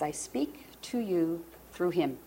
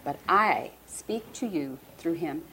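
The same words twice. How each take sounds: First: Slow, soft, weighted words; emotional, hushed. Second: Slow delivery with "I" stressed and held; emotional, emphatic I. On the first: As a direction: say it slowly and softly, moved. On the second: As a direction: lean on "I", moved and unhurried. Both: Retold or imitated. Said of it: "I'm sorry I'm so emotional today".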